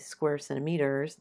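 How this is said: The emphasis falls in an odd place.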